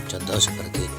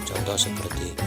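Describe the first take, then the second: Both takes have the same delivery.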